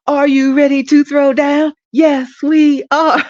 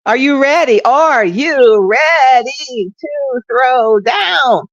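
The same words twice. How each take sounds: First: High, loud soulful cheer, laughing as it ends; cheer with more soul. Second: High, loud cheerleader call, slow and drawn out; rally the crowd like a stiff cheerleader; stiff cheer. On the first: Radio host redoing her cheer with more soul, high and laughing. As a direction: belt the cheer with soul, cracking up. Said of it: "I gotta do it with more soul". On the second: Radio host mock-cheering her listeners, high and loud. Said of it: "Like I'm doing stick cheers". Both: Pretend.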